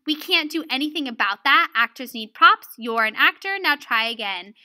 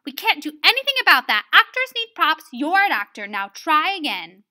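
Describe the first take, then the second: First: Mildly firm quoted reprimand; harsh teacher. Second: Loud, brisk no-nonsense order; harsh teacher. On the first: Retold or imitated. Lesson giver re-reading Miss Bunyan's reply, mildly harsh. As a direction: quote the teacher with a touch of firmness. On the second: Acted. Miss Bunyan answering Robert's complaint, harsh and loud. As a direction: rattle it off loudly, brooking no excuse. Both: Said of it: "I also learned that she's kind of harsh".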